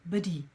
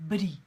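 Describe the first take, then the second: No difference in how they are said.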